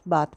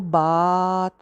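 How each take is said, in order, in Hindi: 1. स्वर सामान्य लंबाई में रखा गया है। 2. स्वर को बहुत ज़्यादा खींचा गया है। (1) "नॉर्मल लेंथ रखते हैं ना उसकी" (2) "तो उसको बात तो नहीं कहते"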